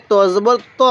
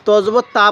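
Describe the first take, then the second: First: ত with a rounded "aw" vowel; the correct reading ত, rounded to "taw"; correct heavy T. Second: তা with an open "aa"; wrong vowel demo. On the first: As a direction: say ত full and rounded, taw, not taa. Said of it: "এটা ভুল পড়বো আমরা". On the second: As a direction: say তা as a light taa, the common mistake. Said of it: "এটা তা না". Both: Shown as a demonstration.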